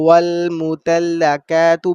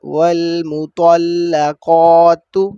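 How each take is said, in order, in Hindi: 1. t और q की आवाज़ पतली और हल्की है। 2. t और q की आवाज़ भारी और भरी हुई है। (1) "बारीक काफ आ जाए" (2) "त्वा और कौफ के मखारिज को ना अदा करें"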